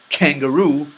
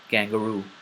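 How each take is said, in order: First: The k is released with a puff of air. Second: The k is released without a puff of air. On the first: The speaker calls it wrong. "I didn't say kangaroo" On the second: The speaker calls it right. "I said kangaroo"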